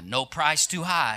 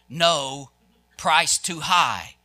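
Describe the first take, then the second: First: It runs on with no pause after "no". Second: There is a pause after "no".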